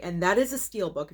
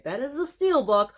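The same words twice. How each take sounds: First: Said in the usual way. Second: Higher, emphatic show-off; excited emphasis. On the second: Shown as a demonstration. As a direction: stress the reveal, pitch up. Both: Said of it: "if you could see it".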